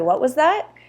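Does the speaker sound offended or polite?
polite. It sounds polite and neutral, a simple request. The listener did not catch what was said. "Just to ask someone to repeat"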